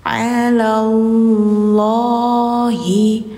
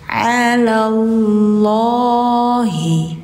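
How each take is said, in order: The two takes are said the same way.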